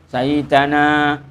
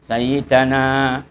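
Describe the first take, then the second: Both takes have the same delivery.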